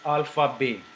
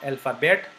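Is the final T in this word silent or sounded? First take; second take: silent; sounded. First: The final T is silent. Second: The final T is sounded. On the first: The speaker calls it right. "because T is not pronounced" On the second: The speaker calls it wrong. "This is not alphabet"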